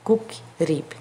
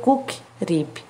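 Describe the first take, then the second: No difference in how they are said.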